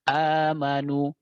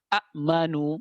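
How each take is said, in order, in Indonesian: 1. Diawali satu vokal panjang. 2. Diawali dua hamzah yang terpisah. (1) "diibdal atau dibadal, maka jadi lamad badal" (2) "bertemu dua hamzah"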